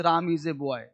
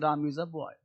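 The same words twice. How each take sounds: First: "a" said as ए, like the letter; common ए. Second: "a" said as आ, open short vowel; correct आ. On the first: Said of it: "लेकिन हम लोग बोलते हैं ए।". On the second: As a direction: say "a" as a light आ. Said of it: "बोलना चाहिए". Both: Shown as a demonstration.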